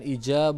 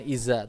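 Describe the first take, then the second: First: The middle consonant is a j sound. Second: The middle consonant is a z sound. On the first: "bukan ija" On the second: "bukan iza"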